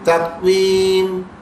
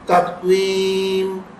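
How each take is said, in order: No difference in how they are said.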